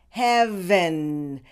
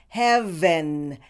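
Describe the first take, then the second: No difference in how they are said.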